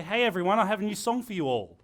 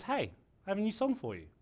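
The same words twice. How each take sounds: First: Louder broadcast call to a crowd; addressing the masses. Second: Said in the usual way. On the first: Shown as a demonstration. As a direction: announce it to everyone at once. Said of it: "A radio presenter will never say". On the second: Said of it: "He says".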